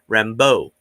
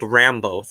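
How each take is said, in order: First: The stress is on the second syllable. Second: The stress is on the first syllable. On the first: This is the French pronunciation of the name. "the French pronunciation, Rambeau. Emphasis on the beau" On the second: This is how the show says the name. "hearing her get called Rambo"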